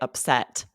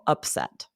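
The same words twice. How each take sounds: First: The stress is on the second syllable. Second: The stress is on the first syllable. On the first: It is the verb or the feeling. "Usually we emphasize the second syllable" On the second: It is the noun meaning an unexpected result. "for this noun, we emphasize that first syllable"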